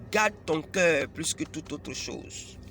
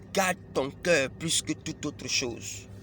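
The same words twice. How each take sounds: Both takes have the same delivery.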